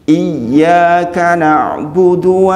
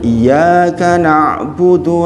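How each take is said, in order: First: The y sound is held long and doubled. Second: The y sound is short and single. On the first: Only to you do I worship. The speaker calls it right. "iya-nya tasdid, yang artinya dibaca do double" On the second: Only to your sunlight do I worship. The speaker calls it wrong. "Ini kekeliruan yang jali"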